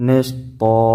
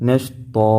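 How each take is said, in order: The two takes are said the same way.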